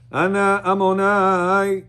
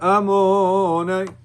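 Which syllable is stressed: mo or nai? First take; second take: nai; mo. First: The stress falls on the last syllable, nai. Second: The stress falls on the middle syllable, mo. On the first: The speaker calls it right. "You can sing on the night" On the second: The speaker calls it wrong. "not the mem. Not Amonai"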